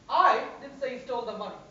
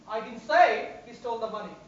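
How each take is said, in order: First: The word I is stressed. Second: The word say is stressed. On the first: Someone else said it. "Means somebody else said it" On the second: It was expressed some other way, such as in writing. "Maybe I've written about it"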